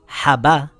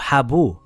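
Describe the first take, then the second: First: The b is followed by a full a vowel. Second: The b is followed by a full u vowel. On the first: "with a fatha" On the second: "with a dhamma"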